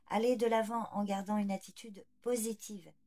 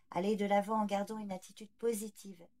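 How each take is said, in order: The two takes are said the same way.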